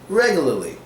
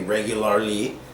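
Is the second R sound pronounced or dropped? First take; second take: dropped; pronounced. First: The second R sound is dropped. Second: The second R sound is clearly pronounced. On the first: The speaker calls it right. "We say regularly because it's much easier that way" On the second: The speaker calls it wrong. "We don't say regularly"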